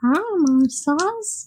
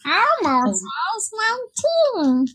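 First: Slow Elmo voice. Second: High, slow Elmo impression; bright puppet voice, drawn out. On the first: Acted. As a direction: stretch it out as Elmo. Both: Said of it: "I could do that voice".

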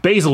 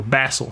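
First: Said in the usual way. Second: Basil said with a short a, as in "cat"; alternative pronunciation of Basil. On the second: Shown as a demonstration. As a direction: say Basil as BAZ-ul, an offhand alternative. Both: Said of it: "however you want to pronounce it".

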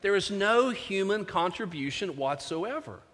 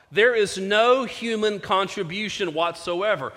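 First: Quieter repeat that leans on "no"; stress on NO. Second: Slow, weighty delivery with stress on "There"; preacher lands the quote slowly, pressing "There is no human contribution whatsoever"; slow emphatic quote. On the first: Preacher repeating the point to the congregation, quieter with "no" stressed. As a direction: drop the volume and punch "no" in "There is no human contribution whatsoever". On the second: Preacher quoting Lloyd-Jones to the congregation, slow and weighty. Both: Shown as a demonstration. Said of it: "Let me say that again".

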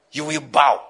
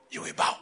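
First: "You will bow" with a heavy, loud "bow"; emphatic "You will bow", landing on "bow"; forceful warning. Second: Soft, low-key "You will bow"; hushed, matter-of-fact warning; quiet warning. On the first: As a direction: hit "bow" hard and let it fall. Preacher repeats truth with force. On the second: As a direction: drop the volume for a grave truth. Preacher states truth, first softly. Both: Real, not acted.

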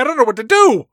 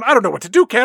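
First: Higher, louder, nearly wailing the repeat; hammed-up wail. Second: Raised, louder hammed-up despair; mock panic. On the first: Dad begging Kat for help, in a hammed-up wail. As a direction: let the panic crack wide open. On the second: Dad confessing the debt to Kat, in hammed-up panic. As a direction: overplay a frightened dad at a loss.

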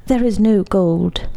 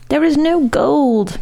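First: Said in the usual way. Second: Slow, higher-pitched moan. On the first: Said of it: "said the maestro at last". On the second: A narrator's reading. Maestro confessing to the Count, moaning. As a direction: draw it out as a plaintive moan. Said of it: "moaned the maestro".

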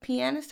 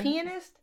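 First: "Pianist" as pee-AN-ist, questioning; other pronunciation. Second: "Pianist" as PEE-uh-nist, high and questioning; country pronunciation. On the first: Host trying her co-host's way, "Pianist" as pee-AN-ist. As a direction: stress the middle of "Pianist", open "an". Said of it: "How you say it?". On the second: Host defending her country accent, "Pianist" as PEE-uh-nist. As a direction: stress the first syllable of "Pianist", reduced middle vowel. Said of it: "That's my country accent". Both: Shown as a demonstration.

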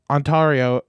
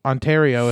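First: "Ontario" with an "ah" in the middle, on-TAR-io; broad middle vowel. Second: Said in the usual way. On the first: Real, not acted. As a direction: say "Ontario" to rhyme its middle with "car". Says the province two ways.

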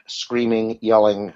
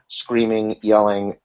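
Both takes have the same delivery.

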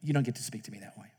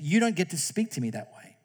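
First: Quietly and quickly, a calm put-down; a teacher's calm, quiet rebuke; calm firm teacher. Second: Said in the usual way. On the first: Retold or imitated. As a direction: set the limit calmly, no heat. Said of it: "she just calmly says". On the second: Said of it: "I said".

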